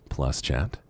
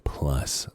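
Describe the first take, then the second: First: Said in the usual way. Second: Whisper. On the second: Shown as a demonstration.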